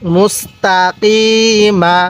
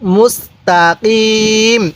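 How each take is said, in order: First: The word ends with a short a vowel. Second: The word ends on the consonant m. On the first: The reading continues without stopping. "মিম জবর মা" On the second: The reader stops at this word. "যদি আমরা এখন ওয়াকফ করি"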